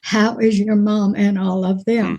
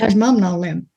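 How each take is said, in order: First: The words are said clearly and separately. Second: The words are run together quickly.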